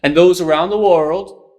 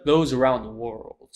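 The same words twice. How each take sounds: First: "And those around the world" pushed loud and high, rising at the end; rising volume and pitch. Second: "those around the world" at ordinary volume, pitch falling at the end; falling, unraised ending. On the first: Demonstrating how the president speaks, raised volume and pitch. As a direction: swell up through "those around the world" like an orator. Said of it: "goes up in volume and pitch". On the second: Showing the alternative to the president's delivery, unraised and falling. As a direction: let "those around the world" drop to a close. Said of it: "instead of".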